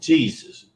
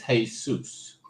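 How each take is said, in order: First: It is said with the English pronunciation. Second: It is said with a Greek pronunciation. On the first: "in the English pronunciation of the word" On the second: "The Greek terminology of that same word"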